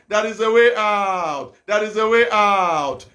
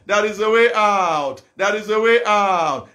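Both takes have the same delivery.

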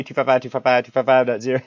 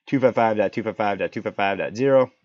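First: Fast auctioneer patter. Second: Said in the usual way. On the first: Shown as a demonstration. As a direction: rattle it off like an auctioneer. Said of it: "you sound like an auctioneer". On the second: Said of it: "so fun to say it like that".

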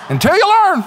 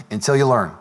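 First: High, loud mock preacher cry; exaggerated cry. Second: Lower, even-toned refrain; low-pitched intoning. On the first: Preacher pokes fun at own refrain, exaggerated high cry. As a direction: shoot the last word up high for comic effect. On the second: Real, not acted. Preacher repeats a refrain to the congregation, low and level. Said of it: "I don't know why I was talking like this".

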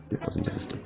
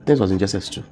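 First: Softer, whispered echo of the line; whispered repeat. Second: Said in the usual way. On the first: Real, not acted. Echoing what he read to the host, whispered. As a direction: repeat it under the breath to yourself. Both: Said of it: "repeats it".

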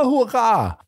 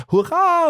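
First: Higher, jubilant hurra falling away; second cheer. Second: Much higher, overjoyed cry of hurra; first hurra shot up high in delight; joyful cheer. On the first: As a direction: cheer again as he rushes toward him. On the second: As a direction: burst out cheering at the sight of Holmes. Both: Acted. Inspector greets arriving Holmes.

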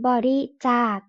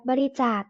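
First: บริจาค sounded out syllable by syllable; reading pronunciation. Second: Said in the usual way. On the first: Shown as a demonstration. (อ่าน บริจาค แยกทีละพยางค์) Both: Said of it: "อ่านว่า".

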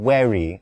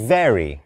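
First: Very with a clear buzzing V, lips on teeth; correct V sound. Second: Very said without a real V, like a "w" or missing V; wrong V sound. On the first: (very ออกเสียง V ชัด) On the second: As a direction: drop the lip-to-teeth V in very. (very ออกเสียง V ไม่ถูก) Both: Shown as a demonstration. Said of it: "ไม่ใช่".

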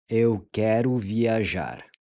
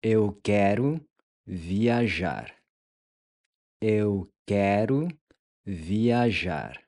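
First: Said in the usual way. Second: "Eu quero" rising, pause, then "viajar." falling; broken into two parts for repeating; slow split phrase. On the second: Shown as a demonstration. ("Eu quero", pause, "viajar." in two halves) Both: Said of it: "How would we say".

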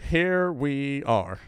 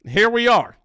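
First: Slow, softer, drawn-out here we are; deflated resignation. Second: Higher, louder, wry here we are; mock resigned. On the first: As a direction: let "Here we are" sink slowly and heavily. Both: Real, not acted. Resigned reaction to clip.

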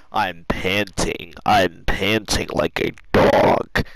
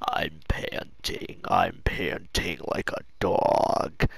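First: Low, slow, loud strained croak; nearly lost voice. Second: Very low, slow, voiceless croak; imitated lost voice. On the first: Real, not acted. Worn out from laughing, nearly lost voice. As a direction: force it out slowly with almost no voice left. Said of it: "I almost lost my voice". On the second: Retelling how he sounded saying it, imitated lost voice. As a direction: croak it out softly as if the voice has gone. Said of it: "couldn't even fucking talk with my voice".

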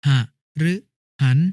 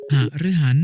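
First: ห ฤ หัน as three short separate syllables; syllable-by-syllable reading. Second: Said in the usual way. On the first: Shown as a demonstration. Brother showing an exception, syllable by syllable: ห ฤ หัน. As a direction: pause after ห and after ฤ. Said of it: "อ่านว่า". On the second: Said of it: "คำว่า".

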